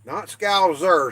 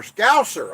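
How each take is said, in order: First: "Scouser" said with a z sound, slow; the wrong take, "Scouser" with z; wrong pronunciation. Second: "Scouser" said with a crisp s sound; the right take, "Scouser" with s; corrected pronunciation. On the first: Streamer corrects himself to viewers, slow wrong take. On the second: Streamer says the corrected word for viewers, crisp and higher. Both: Shown as a demonstration.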